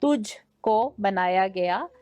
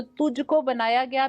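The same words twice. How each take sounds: First: Slow, careful "तुझको" in clean Urdu, rising at the end; correct Urdu pronunciation. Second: "तुझको" said the Punjabi way, as the contestant said it; Punjabi-leaning pronunciation. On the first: Shown as a demonstration. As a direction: model "तुझको बनाया गया" slowly in proper Urdu. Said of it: "अदायगी में आपके वाज़े फ़र्क होना चाहिए". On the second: Retold or imitated. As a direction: imitate the contestant's Punjabi-tinged "तुझको बनाया गया". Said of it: "makes a little more Punjabi की तरफ आप जा रहे थे".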